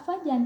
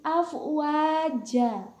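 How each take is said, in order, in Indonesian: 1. Kata ini berakhir dengan bunyi n. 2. Kata ini berakhir dengan vokal panjang terbuka. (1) "Jangan dibaca afwajan" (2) "tetapi afwaja"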